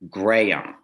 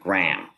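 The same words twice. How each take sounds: First: The name is stretched over about three syllables. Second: The name is said as one short syllable. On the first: The speaker calls it right. "which is sort of three syllables" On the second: The speaker calls it wrong. "which is one"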